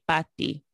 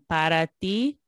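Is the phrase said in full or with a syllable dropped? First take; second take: dropped; full. First: One whole syllable of the phrase is dropped. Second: Every syllable of the phrase is pronounced. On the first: "There's a whole syllable missing" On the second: "instead of saying para ti"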